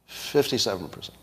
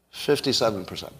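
No difference in how they are said.

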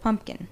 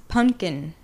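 First: Said in the usual way. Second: "pumpkin" without its m and p, punched; mispronounced pumpkin. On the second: Retold or imitated. Mocking how he says it, "pumpkin" as "punkin". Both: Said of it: "instead of".

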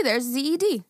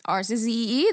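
First: "Z E D" spelled out as zed; zed not zee. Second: "Z E E" spelled out as American zee. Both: Shown as a demonstration.

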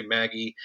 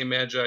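First: Maggie said as MAG-ee; alternative pronunciation. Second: Magi said as MAD-jai; own pronunciation. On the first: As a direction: say Maggie with a hard G and final ee. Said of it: "you can say Maggie". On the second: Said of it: "I say Magi". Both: Shown as a demonstration.

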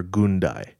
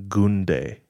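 First: Gundai ending in "die"; alternative pronunciation. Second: Gunde ending in "day"; first pronunciation. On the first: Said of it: "Gunde," or". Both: Shown as a demonstration.

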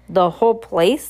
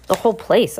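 First: Surprised. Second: Said in the usual way. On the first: A narrator's reading. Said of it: "the woman said in surprise".

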